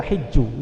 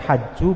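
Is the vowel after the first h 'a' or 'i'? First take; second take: i; a. First: The first vowel is a close 'i' sound. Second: The first vowel is an open 'a' sound. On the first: "dengan di kasr huruf ha-nya" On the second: "dengan di fathah huruf ha-nya"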